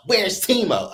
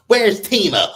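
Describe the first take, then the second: First: Repeated nosy question. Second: Higher, louder imitation of a nosy question; mock nosy question. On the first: Retold or imitated. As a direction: ask it again, less forcefully. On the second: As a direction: mimic her pestering about Timo. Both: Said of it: "So she's asking Stacey".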